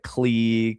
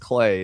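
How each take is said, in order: First: The name is said with an 'ee' vowel. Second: The name is said with an 'ay' vowel. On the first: The speaker calls it wrong. "I've heard so many people call it like Clee" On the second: The speaker calls it right. "the reason I know it's Clay"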